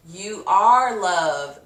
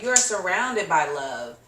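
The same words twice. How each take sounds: First: "You are love" said very slowly and louder; slow emphasis. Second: Said in the usual way. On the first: Real, not acted. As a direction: lay each word down slowly.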